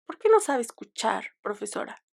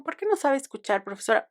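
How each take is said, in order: First: Reproachful question. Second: A pointed, mildly reproachful "¿Por qué no sabe escuchar, profesora?"; reproachful question. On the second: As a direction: lightly imitate the challenge to the teacher. (reproche mordaz a la profesora, apenas actuado) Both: Retold or imitated. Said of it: "lo dije en ese tono".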